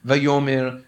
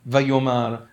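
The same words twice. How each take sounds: First: "Vayomer" with an e in the last syllable; vowel contrast, -mer. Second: "vayomar" with an a in the last syllable; vowel contrast, -mar. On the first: Teacher showing students a nikud slip, "Vayomer" ending in -mer. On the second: Teacher showing students a nikud slip, "vayomar" ending in -mar. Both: Shown as a demonstration. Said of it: "mistake on the nikud".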